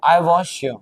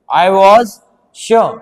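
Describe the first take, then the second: First: Said in the usual way. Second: Very slow, each word stretched out; dictating word by word, very slowly; slow dictation. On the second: Shown as a demonstration. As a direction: spell out I was sure slowly as if dictating for notes. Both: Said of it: "मैंने यहाँ पे लिख दिया sure".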